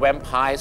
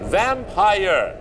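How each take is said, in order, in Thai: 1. คำนี้ลงท้ายด้วยเสียง 'pai' ธรรมดา 2. คำนี้ลงท้ายด้วยเสียง 'ire' เต็มเสียง (1) "เขาไม่ได้เรียกว่าแวมไพร์ซะหน่อย" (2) "ลงท้ายด้วย, IRE, เนี่ยก็ต้องออกเสียงว่า, IRE"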